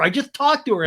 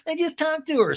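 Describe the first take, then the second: First: High, loud mock protest; hammed-up defensive outburst; Sandoval. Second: Very high mocking echo; mock it back in a squeaky pitch; Ariana. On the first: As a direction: imitate an insistent man shouting his excuse. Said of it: "And Sandoval's like". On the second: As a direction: imitate a woman parroting in falsetto. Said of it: "And Ariana's like".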